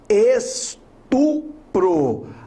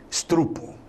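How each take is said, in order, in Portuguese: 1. O som do R vem logo depois do P. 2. O som do R vem logo depois do T. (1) "é estupro" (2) "Nunca mais diga, portanto, estrupo. É muito feio"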